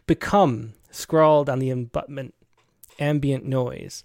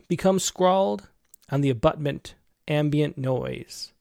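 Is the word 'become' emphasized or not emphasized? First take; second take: emphasized; not emphasized. First: The word become is clearly emphasized. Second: The word become is not specially emphasized.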